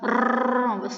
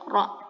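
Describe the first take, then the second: First: The r is trilled with many rapid repeated taps. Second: The r is made with one brief tap. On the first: The speaker calls it wrong. "bukan r tidak seperti itu" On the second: The speaker calls it right. "tapi ra biasa"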